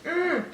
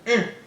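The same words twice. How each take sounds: First: The hum is drawn out like a question. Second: The hum sounds short and angry.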